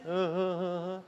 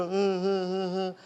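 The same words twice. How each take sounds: First: Quieter, softer fake sobs; mock crying looking up. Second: Looking-down sobbing imitation "uh, uh"; mock child crying. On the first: Teacher shows crying with head raised, soft mock sobs. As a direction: try sobbing with head up. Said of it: "crying like this". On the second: Teacher imitating a crying child, mock sobs. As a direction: sob like a small child. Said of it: "They go". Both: Shown as a demonstration.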